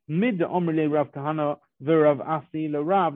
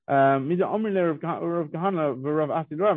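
First: It is read in a plain, neutral tone. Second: It is read in a surprised, questioning tone. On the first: It is a plain statement of what was said. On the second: The speakers are questioning the ruling.

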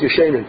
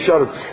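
First: The vowel after the sh is an e. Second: The vowel after the sh is an a. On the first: The commentaries were sleeping. The speaker calls it wrong. "when they mispronounce Tosas Yeshanim, they say the Tosas Yeshanim" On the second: The commentaries are the older ones. The speaker calls it right. "but it's the Tosas Yeshanim. It's the older Tosas"

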